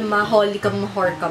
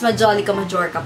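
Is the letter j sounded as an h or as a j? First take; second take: h; j. First: The j sounds are said like an h. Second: The j sounds are said like a j. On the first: The speaker calls it wrong. "Ang pagkakasabi ko nga sa Japan haul" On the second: The speaker calls it right. "Pero it's Majolica Majorca pala"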